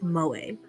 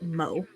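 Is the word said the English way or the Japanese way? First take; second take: Japanese; English. First: It is said with a Japanese pronunciation. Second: It is said with an English pronunciation. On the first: It refers to the Japanese term. "in Japanese, that word is pronounced moe" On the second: It refers to the English name. "in English, that is a name, and we pronounce it mo"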